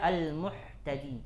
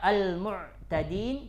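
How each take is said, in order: First: The middle consonant is a breathy h sound. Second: The middle consonant is a voiced throaty ain. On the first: The speaker calls it wrong. "dibaca al-muhtadin" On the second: The speaker calls it right. "Harusnya al-mu'tadin"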